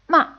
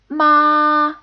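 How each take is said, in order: First: The pitch falls quickly and fades. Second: The pitch stays high and level. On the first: "a short, quickly falling and fading tone" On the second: "a high-pitched, flat tone"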